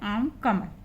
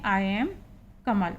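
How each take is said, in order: First: 'I am' is merged into one syllable, 'aam'. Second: 'I am' is said as two full syllables.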